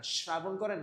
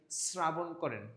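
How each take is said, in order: First: "শ্রাবণ" as shrabon; wrong sh variant. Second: "শ্রাবণ" as srabon; correct s variant. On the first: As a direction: begin "শ্রাবণ" with a clear sh. ("শ্রাবণ" তালব্য শ দিয়ে) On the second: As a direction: begin "শ্রাবণ" with a dental s. ("শ্রাবণ" দন্ত স দিয়ে স্রাবণ) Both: Shown as a demonstration. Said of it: "কি করেন এর উচ্চারণটা আপনি?".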